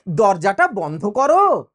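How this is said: It is said as a polite request.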